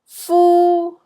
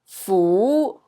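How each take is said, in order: First: The syllable is said in Cantonese tone one. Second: The syllable is said in Cantonese tone two. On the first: "C is tone one" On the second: "B is tone two"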